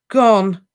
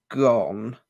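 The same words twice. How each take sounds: First: High, loud disbelieving echo; shocked echo. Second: Slow, despairing elf word; mournful elf. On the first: Harry echoes the elf in stunned disbelief. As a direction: throw the word back in shock. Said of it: "echoed Harry, elation flooding out". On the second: Elf tells Harry the locket is gone. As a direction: let the word drop like a loss. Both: A narrator's reading.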